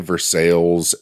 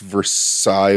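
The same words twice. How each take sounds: First: It is said with an anglicized local pronunciation. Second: It is said with a French pronunciation.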